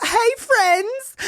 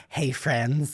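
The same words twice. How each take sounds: First: High, bright ironic hey friends; ironic greeting. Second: Deadpan greeting. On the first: Mocking camp counselors, ironic sing-song greeting. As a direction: say it with a wink. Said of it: "like, ironically". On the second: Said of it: "whenever I'm like". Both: Retold or imitated.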